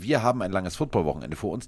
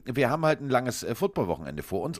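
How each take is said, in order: First: "wir haben ein langes Footballwochenende vor uns" with clear emphasis on "wir" and "langes"; emphatic stress. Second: Said in the usual way. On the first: Shown as a demonstration. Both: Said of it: "muss man das natürlich ganz deutlich so betonen".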